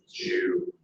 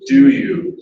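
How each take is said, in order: First: The d and y merge into one j sound. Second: A separate d sound is followed by you.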